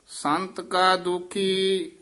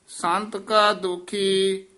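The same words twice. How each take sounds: No difference in how they are said.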